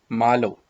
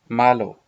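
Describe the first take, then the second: No difference in how they are said.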